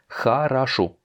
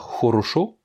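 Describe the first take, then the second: First: The unstressed vowels sound like an A. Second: The unstressed vowels sound like a full O. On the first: The speaker calls it right. "mais хорошо. Les O n'étant pas accentués, on va les prononcer comme des A" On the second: The speaker calls it wrong. "On va pas dire хорошо, comme ça s'écrit"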